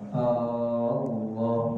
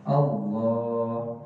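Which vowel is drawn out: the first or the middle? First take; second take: first; middle. First: The first vowel, before the l, is lengthened. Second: The vowel after the l is lengthened. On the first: The speaker calls it wrong. "hamzahnya tuh alifnya nggak boleh dibaca panjang ... maka batal takbiratul ihramnya" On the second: The speaker calls it right. "lamnya itu yang dipanjangin"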